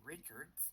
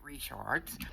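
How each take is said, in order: First: The name is said the way outsiders say it. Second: The name is said the local Southern way. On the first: This is how people elsewhere in the country say it. "as someone in another area of the country would probably say" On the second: This is how people in the speaker's region say it. "We pronounce it"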